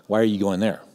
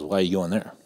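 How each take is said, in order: First: Disapproving question. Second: A touch of dismay, dropped softer; disapproving question. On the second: Pastor hears the seminary name, imitated with dismayed disapproval. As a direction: let the question sink with disapproval. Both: Retold or imitated. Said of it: "that's how he sounded".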